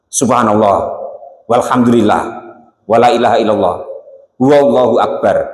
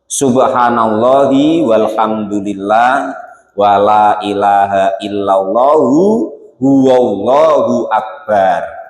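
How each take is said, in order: First: Word endings are cut off without their final vowels. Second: Word endings keep their vowels, linked to the next word. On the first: "Kalau tidak bisa ya di dimati-matikan" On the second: "syukur-syukur bacanya bener"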